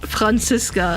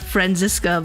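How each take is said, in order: First: The name is said with German pronunciation. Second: The name is said with English pronunciation. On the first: The speaker calls it right. "it's pronounced Franziska" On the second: The speaker calls it wrong. "and not Franziska"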